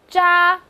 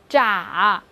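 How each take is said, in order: First: The pitch stays high and level. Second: The pitch dips low and then rises.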